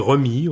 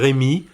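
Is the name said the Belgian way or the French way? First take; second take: Belgian; French. First: The name is said the way people say it in Belgium. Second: The name is said the way people say it in France.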